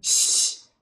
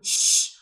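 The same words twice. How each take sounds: First: The hiss is made with the lips kept flat. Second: The hiss is made with the lips pushed forward. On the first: The speaker calls it right. "rahangnya jangan ada monyong-monyongnya" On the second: The speaker calls it wrong. "bibirnya jangan monyong-monyong, jangan shh"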